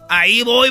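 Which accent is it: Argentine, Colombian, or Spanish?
Colombian. It is said in a Colombian accent.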